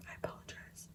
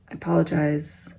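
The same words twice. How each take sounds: First: Barely audible, tiny whisper; hushed aside, nearly vanishing; whispered apology. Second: Said in the usual way. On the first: Real, not acted. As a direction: apologize almost silently. Same apology repeated, whispered.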